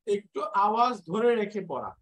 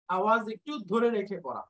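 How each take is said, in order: First: Nasal hum held on ধরে; ghunnah demo. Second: ধরে held with a nasal hum, a touch faster; nasal hold on ধরে, brisk; ghunnah demo. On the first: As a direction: hold the sound in ধরে, humming through the nose. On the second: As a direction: hum ধরে through the nose and keep going. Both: Shown as a demonstration. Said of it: "গুণনা মানে হলো".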